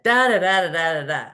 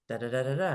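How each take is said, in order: First: Angry reading. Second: Softer, even "da, da, da, da, da"; calm reading. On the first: Woman reading a colleague's email to a friend, mock-indignant. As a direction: read the "da, da, da" as an offended outburst. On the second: Friend rereading the email to show another way, calm and soft. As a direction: read the "da, da, da, da, da" gently and neutrally. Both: Retold or imitated. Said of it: "Or you could read it like this".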